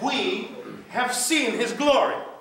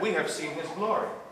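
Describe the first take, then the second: First: It is said loudly, with a raised voice. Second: It is said quietly, without a raised voice.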